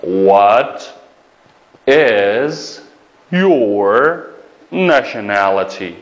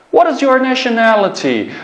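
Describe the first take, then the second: First: Very slow, each word set apart with pauses; slow dictation pace. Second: Said in the usual way. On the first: Shown as a demonstration. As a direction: dictate it one word at a time.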